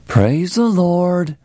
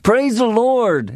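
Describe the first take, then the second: First: It is said in a grudging, flat way. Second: It is said in an eager, enthusiastic way.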